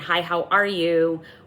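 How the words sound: It sounds hesitant, wary and nervous. The speaker is uneasy or afraid of the other person. "you're cautious or you're scared or you're nervous"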